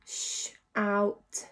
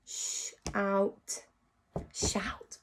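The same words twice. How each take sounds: First: Said in the usual way. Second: Whispered shout. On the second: Shown as a demonstration. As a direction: breathe it with no voice.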